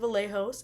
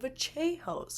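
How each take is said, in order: First: The double L has the plain sound. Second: The double L has the Argentine sound. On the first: The speaker calls it wrong. "it's not Kevin Vallejos" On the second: The speaker calls it right. "because he is an Argentine"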